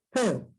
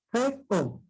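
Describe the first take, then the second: First: Said in the usual way. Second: "F O" as two separate syllables, fe, o; split into syllables. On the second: Shown as a demonstration. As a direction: pause between the syllables of "F O". ("F O" separado en sílabas: fe, o) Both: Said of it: "sílabas diferentes".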